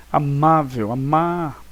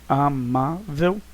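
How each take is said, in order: First: "Amável, amar" with MA leaning out; stress on MA. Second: "amável" very slowly, split a - má - vel; syllable by syllable. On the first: Teacher helping a native speaker find the tonic syllable, stress on "ma". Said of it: "O ma é a sílaba tônica". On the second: Teacher showing the syllable division, "amável" syllable by syllable. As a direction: break "amável" into three separate syllables. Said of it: "separação silábica". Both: Shown as a demonstration.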